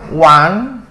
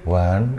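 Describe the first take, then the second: First: It is said higher, resonating in the cheeks. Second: It is said lower, without cheek resonance.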